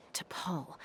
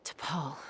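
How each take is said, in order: First: Whispered to himself; a private whispered musing. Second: Said in the usual way. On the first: Acted. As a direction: breathe the name, no voice. Name repeated in a whisper.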